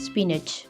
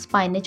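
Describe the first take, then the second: First: The first syllable sounds like 'spin'. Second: The first syllable sounds like 'spine'. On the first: The speaker calls it right. "असल word होता है" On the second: The speaker calls it wrong. "वो गलत word होता है"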